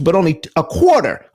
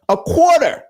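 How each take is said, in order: First: Said in the usual way. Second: "a quarter" repeated much higher, leaping up on "quarter"; stress on quarter. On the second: Shown as a demonstration. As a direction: jump high on "quarter" for disbelief.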